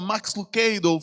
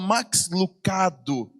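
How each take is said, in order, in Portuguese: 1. O nome é falado de forma não brasileira. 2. O nome é falado do jeito brasileiro. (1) "Ela não falava Max Lucado" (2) "Pronunciava como nós pronunciamos aqui no Brasil"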